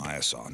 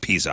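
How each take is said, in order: First: The name ends with a 'saw' sound. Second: The name ends with an 'uh' sound. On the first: The speaker calls it right. "Piasaw, not pizza" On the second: The speaker calls it wrong. "I may have said pizza"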